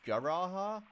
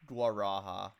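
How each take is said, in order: First: The 'u' sound after the G is silent. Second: The 'u' sound after the G is pronounced. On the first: "or if it's kind of silent, it's just Garaha" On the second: "I don't know if the actual U is pronounced there"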